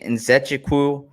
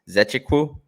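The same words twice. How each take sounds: First: Nzechukwu with the initial N sounded; alternative pronunciation. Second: Zechekwu starting straight on the Z; believed correct pronunciation. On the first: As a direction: say Nzechukwu with an N before the Z. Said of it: "some people say Nzechukwu". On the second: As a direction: say Zechekwu with no N in front. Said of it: "the correct pronunciation is Zechekwu". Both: Shown as a demonstration.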